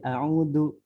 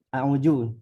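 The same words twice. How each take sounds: First: The middle consonant is a d sound. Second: The middle consonant is a j sound. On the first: "Kalau di kalau dal jadi" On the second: "ada yang misalnya di Betawi kalau nggak salah jadi ju"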